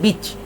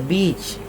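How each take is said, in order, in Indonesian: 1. Vokalnya dipotong pendek. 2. Vokalnya diucapkan panjang. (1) "bukan beach" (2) "yang panjang tu bunyi dia beach"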